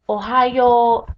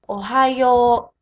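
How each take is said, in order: The two takes are said the same way.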